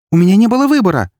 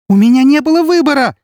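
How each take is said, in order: First: Quick, high, loud outcry; rapid defensive cry; exclaimed protest. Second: Shrieked, frantic self-defence; desperate scream. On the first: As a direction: blurt it out in high-pitched self-defence. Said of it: "воскликнула Эри". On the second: She screams in despair. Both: A narrator's reading.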